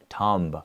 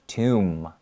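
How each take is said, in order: First: The word ends with an audible b sound. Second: The word ends on an m sound, no b. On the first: The speaker calls it wrong. "and not tomb" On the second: The speaker calls it right. "Even though there is a B, you don't usually pronounce it. So it's tomb like that"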